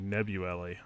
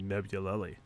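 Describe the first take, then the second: First: The middle L sound is left out. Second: The middle L sound is clearly pronounced. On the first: The speaker calls it wrong. "You're saying Nebuleli. ... You keep skipping the L" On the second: The speaker calls it right. "I'm saying Nebuleli"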